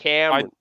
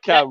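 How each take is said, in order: First: The name is said in an American accent. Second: The name is said in a British accent. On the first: It means the character in the film. The speaker calls it right. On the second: It could be taken as the friend present. The speaker calls it wrong.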